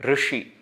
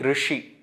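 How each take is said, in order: First: The r has a vowel between r and ri. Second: The r has a vowel between r and ri.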